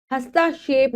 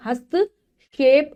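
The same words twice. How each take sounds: First: "हस्तक्षेप" run as hastaa-shep, K missing; mispronounced word. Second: "हस्तक्षेप" slowly in two parts, hast, kshep; correct pronunciation. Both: Shown as a demonstration. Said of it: "हस्तक्षेप नहीं".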